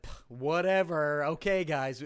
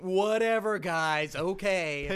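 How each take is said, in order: First: Lightly put-on British accent, drawn out and loud; half-hearted British accent that sounds Californian; joke British accent. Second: Hammed-up British accent, higher and much louder; bad British accent. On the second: Shown as a demonstration. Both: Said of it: "That's my British accent".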